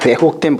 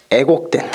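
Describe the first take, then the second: First: Said in the usual way. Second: 애곡된 with plain "e" for "wae"; dialect-style 애곡된; Jeolla pronunciation. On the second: Shown as a demonstration. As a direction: drop the w glide in 애곡된. Jokingly reuses the dialect pronunciation just shown.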